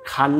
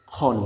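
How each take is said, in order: First: খান with a clear "aa"; open A vowel. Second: খন with a heavy rounded "o"; silent A-vowel. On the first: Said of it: "খান না বলে আমরা কি বলবো". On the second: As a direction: say খন as "khon", no open "aa". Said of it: "খ না খন বলবো". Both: Shown as a demonstration.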